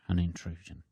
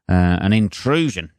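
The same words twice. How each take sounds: First: An intrusion repeated much softer, almost breathed; hushed echo. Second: Said in the usual way. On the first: Shown as a demonstration. Mocking the guy's word, a hushed echo. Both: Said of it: "that is the word he used".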